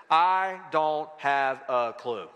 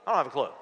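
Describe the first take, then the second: First: Slow, deliberate, each word set apart. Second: Said in the usual way. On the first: Real, not acted. Preacher giving congregation his five-word answer, slow and deliberate. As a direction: spell it out one word at a time.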